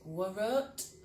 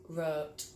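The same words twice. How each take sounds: First: The W at the start is sounded. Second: The W at the start is silent. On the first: The speaker calls it wrong. "not wrote" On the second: The speaker calls it right. "Silent W"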